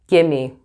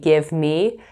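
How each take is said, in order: First: The words are run together as 'gimme'. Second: Both words are said fully and separately. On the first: "you'll hear gimme" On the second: "instead of saying give me"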